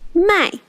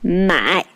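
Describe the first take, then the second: First: The word has a sharp falling tone. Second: The word has a low dipping tone. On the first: It means to sell. "sell is fourth tone" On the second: It means to buy. "buy is third tone"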